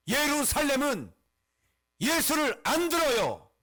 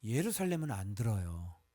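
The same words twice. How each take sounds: First: Loud, high declamation with falling endings; emphatic pulpit cry; forceful proclamation. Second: Said in the usual way. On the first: Acted. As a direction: proclaim "예루살렘은" and "안 들어요" at full force, pausing between phrases. Same statement proclaimed at full force.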